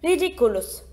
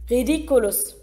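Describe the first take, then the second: First: "Ridiculus" spoken clearly, each syllable distinct, falling at the end; spell demonstrated. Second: "Ridiculus" as a light group echo, not quite as crisp as the teacher's; class in unison. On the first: Shown as a demonstration. Teacher demonstrates "Ridiculus" for the class to repeat. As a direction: model "Ridiculus" crisply so the class can copy it. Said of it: "Nach mir bitte". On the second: Acted. Class echoes the teacher's "Ridiculus" in one voice. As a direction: repeat "Ridiculus" like pupils chanting back. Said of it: "sagte die Klasse wie aus einem Mund".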